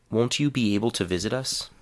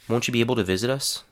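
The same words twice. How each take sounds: First: 'Won't you' is said as two full words. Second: 'Won't you' is blended into 'woncha'. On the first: "a whole sentence with a full, unreduced form" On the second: "a whole sentence containing the reduced form"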